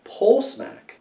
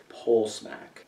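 First: Higher, quick bright read; pitched up. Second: Much softer, low mumble; hushed. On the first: Trying out the suggestion again, pitched up. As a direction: lift it up high and bounce it. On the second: Trying out the suggestion to himself, softly. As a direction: let the words drop to near nothing. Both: Shown as a demonstration. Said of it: "Is that like smacking a pole?".

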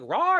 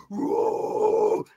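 First: Small, high-pitched rising "rawr"; mock growl. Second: Big drawn-out growled roar, all rough noise. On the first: Bandleader asking his shaken staffer about the growl, high mock growl. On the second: Retold or imitated. Bandleader acting out his staffer's account of an attacker, big growl. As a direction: imitate the big guy's long growl. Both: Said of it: "he does this big growl thing".

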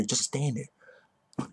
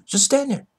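First: Said in the usual way. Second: Just stand there blurted high and loud; higher, louder mocking repeat; mocking yell. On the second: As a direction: throw it back at him, louder.

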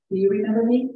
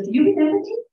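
First: Said in the usual way. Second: High and loud, eager to be recognized; a former patient asking the nurse if she remembers her; eager question. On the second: Retold or imitated. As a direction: ask it bright and hopeful, pitched up. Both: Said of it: "she goes".

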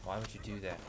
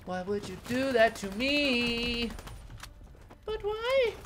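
First: Barely voiced, muttered much softer; hushed complaint. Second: Slow, higher, drawn-out whine; whiny complaint. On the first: Player muttering at the game, hushed and soft. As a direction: asks it under his breath, almost to himself. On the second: Player whining at the enemy who shot him, slow and high. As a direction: stretch it out like a wounded plea. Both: Real, not acted.

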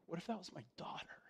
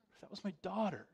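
First: Anxious whisper, quick and hushed. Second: Said in the usual way. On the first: Retold or imitated. Preacher recalling runaway girls, whispering in alarm. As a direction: breathe the fear out in a whisper.

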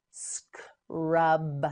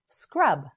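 First: "Scrub" split into s, k, long rub; slow sounding-out. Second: Said in the usual way. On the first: Shown as a demonstration. Teacher models word in parts.

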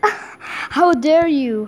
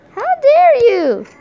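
First: Said in the usual way. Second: Higher, louder hammed-up how dare you; mock outrage. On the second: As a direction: shout it like a cartoon villain scolding.

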